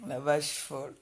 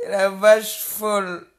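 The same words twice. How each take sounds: First: Said in the usual way. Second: Loud, slowed insult with vache stressed, "La vache folle" dragged out; stretched mocking yell of "La vache folle"; slow loud taunt. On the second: Real, not acted. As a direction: yell "La vache folle" slowly and lean hard on vache. Repeats the insult, then quietly.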